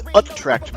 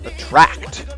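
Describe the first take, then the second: First: The stress is on the first syllable. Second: The stress is on the second syllable. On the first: The speaker calls it wrong. "the word is not pronounced like that" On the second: The speaker calls it right. "The emphasis is on the second syllable"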